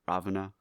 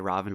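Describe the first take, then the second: First: The name ends with a final vowel sound. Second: The name ends on a consonant, no final vowel. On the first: This follows the spelling. "it's spelled Ravana" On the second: This is how people actually say it. "They'll say Ravan"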